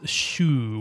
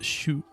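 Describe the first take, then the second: First: The u vowel is held long. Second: The u vowel is kept short. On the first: This is the usual reading of the character. "with a long u" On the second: This is the reading used in this word. "it's just shu"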